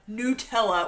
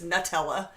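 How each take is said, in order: First: The first syllable does not sound like 'nut'. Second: The first syllable sounds like 'nut'. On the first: This is how Americans say it. The speaker calls it wrong. "when Americans pronounce Nutella Nutella" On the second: The name comes from the word nut. The speaker calls it right. "when it's Nutella. That does make more sense because it's a nut"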